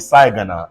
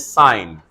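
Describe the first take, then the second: First: A g sound is pronounced inside the word. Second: No g sound is pronounced in the word. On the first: The speaker calls it wrong. "cannot be sigana" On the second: The speaker calls it right. "the ga has to die"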